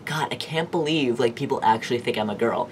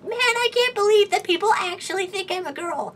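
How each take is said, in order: First: It is said in his normal, lower voice. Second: It is said in a high, feminine voice.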